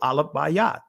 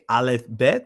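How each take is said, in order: First: The second word is said as Bayat. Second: The second word is said as Bet.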